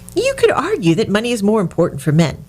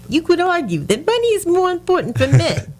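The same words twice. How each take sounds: First: It is read in a non-Bronx accent. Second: It is read in a sinister Bronx accent. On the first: "you do it in accent" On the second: "I should have done it in a good Bronx accent. Made him sound really sinister"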